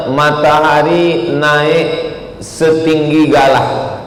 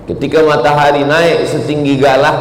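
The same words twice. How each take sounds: First: Slow, stretched explanation of the meaning; slow, stretched teaching voice; drawn-out meaning. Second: Said in the usual way. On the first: Shown as a demonstration. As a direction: draw each word out, slowly, like a lesson.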